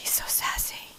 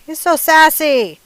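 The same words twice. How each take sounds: First: Breathy whisper, delighted; hushed little aside about the sassy bird. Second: High, loud and drawn out; slow and loud, savoring the word sassy; loud sassy exclaim. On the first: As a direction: let it slip out as a secret. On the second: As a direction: belt it out with gleeful sass. Exclaiming about rooster's attitude. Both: Acted.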